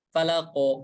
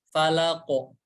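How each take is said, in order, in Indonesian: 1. Q di akhir bergema penuh ke arah o. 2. Q di akhir bergema penuh ke arah o.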